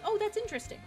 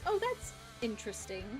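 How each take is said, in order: First: The tone sounds genuinely curious and open. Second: The tone sounds doubtful and politely disapproving. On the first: The thing really is interesting. "that could actually be interesting" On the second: The thing is actually bad. "That's usually bad"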